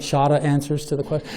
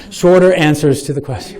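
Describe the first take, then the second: First: Shorter said Boston style as "shahtah", no r sounds; a playful, light Boston accent on "shorter answers". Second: Said in the usual way. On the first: Shown as a demonstration. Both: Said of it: "That was my Boston accent".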